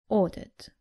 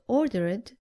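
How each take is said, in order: First: The ending adds no extra syllable. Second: The ending is an extra 'id' syllable. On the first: The speaker calls it right. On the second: The speaker calls it wrong.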